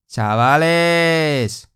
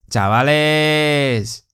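The two takes are said the same way.

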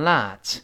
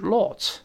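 First: It is said in an American accent. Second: It is said in a British accent. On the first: "美式变成lot" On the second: "英式发音是lot"

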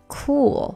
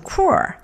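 First: The word ends with an L sound. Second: The word ends with an R sound. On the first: The speaker calls it right. "主要注意一下最后是L 的结尾没有R" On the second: The speaker calls it wrong. "不要读成cool 那就很奇怪啦"

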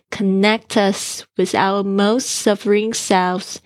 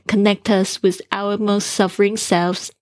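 First: The phrase is read slowly and carefully. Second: The phrase is read at normal speaking speed. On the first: "一开始慢慢练" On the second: "最后呢用这个正常语速再念一次"

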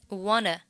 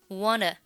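First: The two words are linked into one. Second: The same.

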